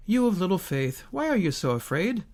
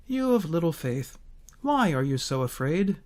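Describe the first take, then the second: First: Said in the usual way. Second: Gentle rebuke. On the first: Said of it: "In Matthew eight and verse twenty-six". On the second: Shown as a demonstration. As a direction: scold them tenderly, like a patient teacher. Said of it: "One is a gentle rebuke for his disciples".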